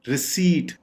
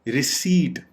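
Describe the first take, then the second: No difference in how they are said.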